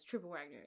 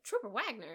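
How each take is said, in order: First: Said in the usual way. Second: "Trooper Wagner?" louder, higher, puzzled; confused surprise. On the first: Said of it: "And then he says". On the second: Retold or imitated. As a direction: blurt "Trooper Wagner?" in disbelief. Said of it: "And Marsha's like".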